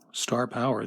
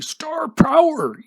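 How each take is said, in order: First: It is said in his plain own voice. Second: It is shouted as an imitation of Freedom Sufferer.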